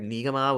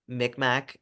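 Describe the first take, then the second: First: The name is said in its native way. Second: The name is said in an anglicized way. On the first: This is the people's own name, meaning family. The speaker calls it right. "They actually heard Mi'kmaq" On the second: This is the outsiders' version of the name. The speaker calls it wrong. "Micmac is what they thought they heard"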